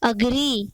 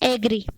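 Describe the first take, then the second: First: The first vowel sounds like 'uh'. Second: The first vowel sounds like 'ay'. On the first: The speaker calls it right. "इसका सही pronunciation क्या होता है?" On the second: The speaker calls it wrong. "एग्री नहीं होता है"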